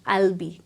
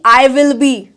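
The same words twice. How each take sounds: First: The phrase starts on a low pitch. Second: The phrase starts on a high pitch. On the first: The speaker calls it right. "हाँ नीचे से शुरू करना है" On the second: The speaker calls it wrong. "ऐसे नहीं"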